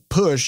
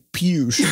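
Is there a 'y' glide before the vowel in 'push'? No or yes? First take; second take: no; yes. First: The vowel is plain, with no 'y' glide. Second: The vowel has a 'y' glide, like 'you'. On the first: The speaker calls it right. "if you had the word push" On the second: The speaker calls it wrong. "you wouldn't say push"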